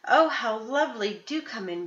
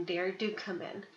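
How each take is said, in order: First: A hint of a cackly old granny; put-on granny sweetness. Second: Slow and softer granny coax. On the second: Acted. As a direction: draw them in gently, slowly. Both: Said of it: "cackly voice".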